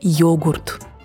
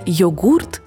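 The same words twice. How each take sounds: First: The word has its newer stress placement. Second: The word has its older stress placement. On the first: This is the newer form of the word. "новое «йогурт»" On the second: This is the older form of the word. "Старое «йогурт»"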